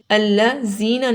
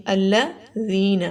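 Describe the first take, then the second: First: الذین mispronounced with a buzzing z, "allazina"; wrong whistled za. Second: الذین drawn out with a soft th as in "this"; correct soft dhal. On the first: Teacher shows learners what to avoid, الذین said with z. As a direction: put a sharp whistled z in الذین. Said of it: "الذین نہیں پڑھنا". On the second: Teacher corrects the wrong reading, soft unwhistled الذین. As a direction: say الذین slowly, tongue on teeth, no whistle. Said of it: "بہت نرمی سے پڑھا جائے گا". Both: Shown as a demonstration.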